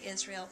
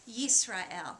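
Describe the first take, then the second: First: The word begins with a plain vowel sound. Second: The word begins with a y sound. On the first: This is the English form of the name. "In English we would say Israel" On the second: This is the Hebrew form of the name. "in Hebrew, Yisrael. And it's got that y, y sound at the beginning"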